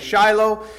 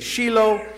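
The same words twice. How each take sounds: First: The name is said the North American way. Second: The name is said the Israeli way. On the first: "In North America, we say Shiloh" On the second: "Over in Israel, they say Shiloh"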